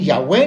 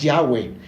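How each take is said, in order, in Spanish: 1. El acento está en la última sílaba. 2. Las dos sílabas se dicen igual, sin acento. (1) "ni Yahweh" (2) "lo haga sin ningún acento en ninguna de las dos sílabas"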